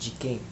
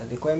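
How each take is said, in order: First: 'Quem' is said with a native Brazilian pronunciation. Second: 'Quem' is said with a foreign-sounding pronunciation. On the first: The speaker calls it right. "ela me explicou que se pronuncia como ah, de quem" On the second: The speaker calls it wrong. "eu pronunciava de quem como de quem"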